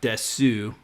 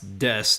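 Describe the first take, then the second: First: The final vowel is pronounced. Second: The final vowel is dropped. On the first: The speaker calls it wrong. "not desu" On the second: The speaker calls it right. "you pronounce des"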